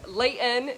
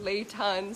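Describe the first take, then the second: First: It is said with a Utah accent. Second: It is said with a standard accent. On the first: "that Utah accents will still probably come out" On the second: "instead of"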